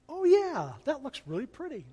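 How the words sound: It is said warmly with sincere enthusiasm. The speaker really likes the craft. The speaker calls it right. "that's a tone that conveys a genuine sense of, I really like that"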